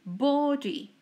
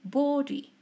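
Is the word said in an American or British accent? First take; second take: British; British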